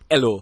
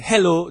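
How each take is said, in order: First: The word begins without any H sound. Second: The word begins with a clear H sound. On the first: It sounds more like native Jamaican patois. "you simply take off your H's" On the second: It is the usual standard form. "instead of saying hello"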